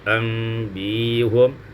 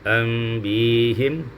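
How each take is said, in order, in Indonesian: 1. Vokal setelah h adalah bunyi u. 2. Vokal setelah h adalah bunyi i. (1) "mendomahkan ha" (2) "boleh juga kasrah"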